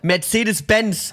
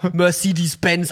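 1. Der Name wird deutsch ausgesprochen. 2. Der Name wird amerikanisch ausgesprochen. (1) "it's called Mercedes-Benz" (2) "and not Mercedes-Benz"

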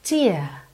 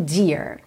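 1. O R final é omitido, e a vogal é alongada. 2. O R final é pronunciado com a língua enrolada. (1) "vai alongar a vogal anterior" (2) "e não dear"

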